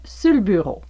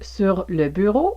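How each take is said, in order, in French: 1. 'Sur le' se contracte en une seule syllabe 'sul'. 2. Les deux mots 'sur le' se prononcent en entier. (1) "vous pourriez entendre sul" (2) "Par exemple"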